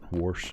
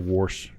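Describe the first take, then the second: First: It is said in a standard American accent. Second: It is said in a Pittsburgh accent. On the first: "instead of" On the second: "a Pittsburghese kind of word that might slip in"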